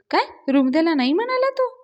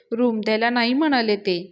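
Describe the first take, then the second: First: High-pitched, indignant disbelief; raised voice of astonishment; shocked question. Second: Tearful line told with little voice change; a faint touch of crying; understated tearful report. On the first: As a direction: echo it back high and incredulous. Acted shocked reaction to bad news. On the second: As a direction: report it sadly, barely acted. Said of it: "Avni रडतच सांगायला लागते". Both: A narrator's reading.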